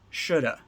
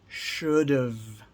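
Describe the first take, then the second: First: The second word shrinks to a short 'a' vowel. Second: The second word shrinks to a short 've' sound. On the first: "when we're speaking very quickly, we actually pronounce it shoulda" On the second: "The contraction for should have is should've"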